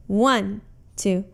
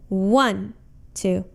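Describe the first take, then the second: No difference in how they are said.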